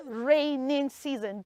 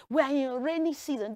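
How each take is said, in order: First: "raining" with an -ing ending; wrong wording. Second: "rainy" said with no final n; correct wording. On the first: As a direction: stretch "raining" as the mistake to avoid. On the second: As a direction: say "rainy" cleanly, ending on an ee sound. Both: Shown as a demonstration. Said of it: "Don't say raining season".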